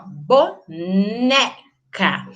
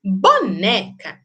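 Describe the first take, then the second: First: "boneca" slowly split bo, NE, ca; syllable by syllable. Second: "Boneca" said as one word, NE strong; stress on penultimate syllable. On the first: Teacher showing why it is penúltima, syllable by syllable. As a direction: break "boneca" into slow syllables, NE held. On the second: Teacher asking which syllable is strong, stress on penultimate. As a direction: punch the middle of "Boneca" without breaking it up. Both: Shown as a demonstration. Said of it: "Penúltima mais forte".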